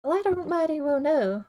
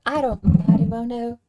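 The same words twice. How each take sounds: First: Attempted western twang. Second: Louder second take of the western twang, leaning into it; more committed western twang, loud and sure. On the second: Streamer commits to his Blackwater character, in a western twang. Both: Shown as a demonstration. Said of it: "I'm getting into it".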